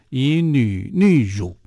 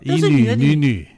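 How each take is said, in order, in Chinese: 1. 最后一个音节读作'ru'。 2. 最后一个音节读作'nü'。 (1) "真的把它读成叫以女女乳" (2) "写法都叫以女女女"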